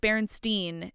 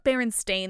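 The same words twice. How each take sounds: First: The last part is pronounced like 'stein'. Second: The last part is pronounced like 'stain'. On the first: "people remember it being spelt Berenstain, like S-T-E-I-N" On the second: "it's actually spelled Stain, like S-T-A-I-N"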